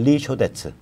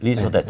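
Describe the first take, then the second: First: The second syllable starts with an 'sh' sound. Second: The second syllable starts with an 's' sound. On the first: The speaker calls it wrong. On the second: The speaker calls it right.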